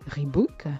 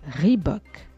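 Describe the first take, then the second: First: It is said with a French pronunciation. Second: It is said with an English pronunciation. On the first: This is the usual habit of the listeners. The speaker calls it wrong. "vous avez pris l'habitude de le prononcer Reebok" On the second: This honours the founder of the brand. The speaker calls it right. "Rendons justice au fondateur de la marque"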